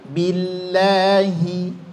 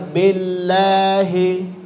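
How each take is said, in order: First: The vowel after b is a clear I. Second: The vowel after b is not a clear I. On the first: The speaker calls it right. "Billahi bunyikan vokalnya I" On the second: The speaker calls it wrong. "masih terdengar billahi"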